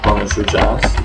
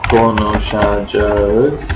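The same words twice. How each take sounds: First: A vowel is dropped, so it is shorter. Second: Every syllable is pronounced fully. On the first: This is the colloquial spoken form. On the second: This is the standard written form.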